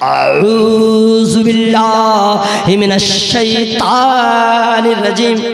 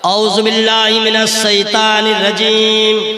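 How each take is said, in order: First: The vowels are stretched out far too long. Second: The vowels are held for normal lengths. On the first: The speaker calls it wrong. "लगे सत्रह अठारह को मद ला के रख दिया जहाँ पे एक कोठो मद नहीं है।" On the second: The speaker calls it right. "गौर से सुनिएगा।"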